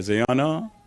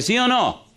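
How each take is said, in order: First: Said in the usual way. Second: "sí o no" higher and pressed, calling out; preacher pushing the congregation for a reply; emphatic repeat. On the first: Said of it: "A ver, ¿sí o no?". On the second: Shown as a demonstration. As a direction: demand the answer from the crowd.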